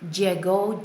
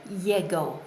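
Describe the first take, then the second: First: The double L sounds like a J. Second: The double L sounds more like a G.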